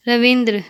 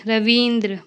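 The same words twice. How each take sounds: First: Short i in "रविंद्र"; incorrect pronunciation. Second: Long ee in "रवींद्र"; correct pronunciation. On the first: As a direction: say "रविंद्र" wrongly with a brief middle vowel. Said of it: "अशुद्ध शब्द". ("रविंद्र" का अशुद्ध उच्चारण, छोटी इ) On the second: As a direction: say "रवींद्र" with the middle vowel held long. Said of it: "शुद्ध शब्द". ("रवींद्र" का शुद्ध उच्चारण, लंबी ई) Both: Shown as a demonstration.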